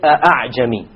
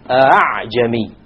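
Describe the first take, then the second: First: The second hamza is a full glottal stop. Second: The second hamza is softened toward an alif. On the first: The speaker calls it wrong. "You don't say" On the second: The speaker calls it right. "Rather you pronounce it as follows. ... it is in between"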